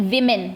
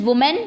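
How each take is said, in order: First: 'women' with first syllable 'wi', falling at the end; pronunciation demo. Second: 'woman' with first syllable 'wu', rising at the end; pronunciation demo. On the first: Teacher contrasting the plural with the singular, pronunciation demo. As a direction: model 'women' as WI-min. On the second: Teacher showing pupils the singular, pronunciation demo. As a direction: model 'woman' as WU-mun. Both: Shown as a demonstration. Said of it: "pronunciation भी देख लीजिए".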